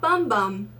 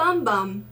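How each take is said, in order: First: The vowel sounds like the English word 'bum'. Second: The same.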